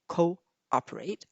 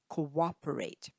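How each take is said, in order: First: The two vowels meet with no W glide. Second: A light W glide links the two vowels. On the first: The speaker calls it wrong. "We don't say cooperate" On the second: The speaker calls it right. "I say co co cooperate"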